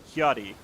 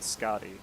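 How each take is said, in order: First: The name begins with a breathy H-like sound. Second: The name begins with a hard SK sound. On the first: The speaker calls it right. "So it'd be like Hyadi" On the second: The speaker calls it wrong. "not Scotty"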